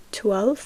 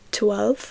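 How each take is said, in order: Both takes have the same delivery.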